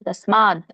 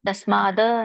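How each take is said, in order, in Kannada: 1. ಪದ ಶುದ್ಧ ವ್ಯಂಜನದಲ್ಲಿ ಕೊನೆಗೊಳ್ಳುತ್ತದೆ. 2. ಪದದ ಕೊನೆಯಲ್ಲಿ ಸೇರಿಸಿದ ಸ್ವರವಿದೆ. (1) "ಅಲ್ಲಿ ವ್ಯಂಜನ ಇರೋದ್ರಿಂದ" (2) "ತಸ್ಮಾದ ಅನ್ನಂಗಿಲ್ಲ"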